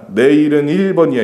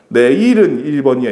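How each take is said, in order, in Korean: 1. 두 번째 '일'을 더 세게 발음해요. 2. 첫 번째 '일'을 더 세게 발음해요. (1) "뒤에 숫자 일이 더 세구만 일 번이야 이러잖아" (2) "이렇게 안 하잖아"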